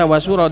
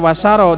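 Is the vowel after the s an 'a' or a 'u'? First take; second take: u; a. First: The vowel after the s is 'u'. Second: The vowel after the s is 'a'. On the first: "dan juga bisa wasuro" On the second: "Bisa dibaca wasaro"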